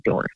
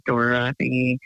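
First: "Dorothy" cut to two syllables, Dor-thy; "Dorothy" run together as Dor-thy; everyday pronunciation. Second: "Dorothy" in three full syllables, Dor-o-thy; "Dorothy" carefully sounded out as Dor-o-thy; proper pronunciation. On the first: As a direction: drop the middle vowel of "Dorothy". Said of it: "They just say Dorothy". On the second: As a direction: keep the middle vowel in "Dorothy". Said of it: "six syllables if people pronounced my name proper". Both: Shown as a demonstration.

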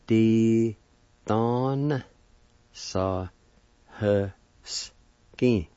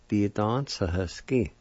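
First: "Di don sa he skin" in long, separated syllables. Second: Said in the usual way. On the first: Shown as a demonstration. Teacher shows pickpocket word to learners, syllable by syllable. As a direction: sound out "Di don sa he skin" with a pause after each part. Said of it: "with the D A like this". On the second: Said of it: "like this".

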